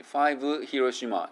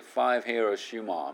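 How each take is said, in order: First: "Five Hiroshima" with an extra vowel after the V; wrong version. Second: "Five Hiroshima" linked with no vowel after V; right version. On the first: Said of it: "じゃなくて". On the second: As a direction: glide the V straight into "Hiroshima". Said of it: "みたいな感じで". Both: Shown as a demonstration.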